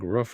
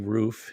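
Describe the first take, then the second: First: It is said the Pennsylvania way, like a bark. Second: It is said in the speaker's local way.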